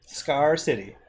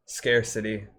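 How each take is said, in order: First: Scarcity with "ar" as in car; other pronunciation. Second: Scarcity with "air" as in scare; own pronunciation. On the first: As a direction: say Scarcity as SKAR-si-tee. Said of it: "you say scarcity". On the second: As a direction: say Scarcity as SKAIR-si-tee. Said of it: "I say scarcity". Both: Shown as a demonstration.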